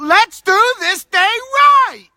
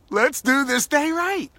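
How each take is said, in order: First: It is screamed out loudly. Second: It is said at a normal volume.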